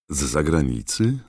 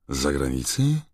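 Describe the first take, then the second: First: Said in the usual way. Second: Mildly puzzled echo, rising; genuinely surprised. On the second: A narrator's reading. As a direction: repeat it back in puzzlement. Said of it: "powtórzył pan Weasley szczerze zdziwiony". (ze szczerym, lekkim zdziwieniem)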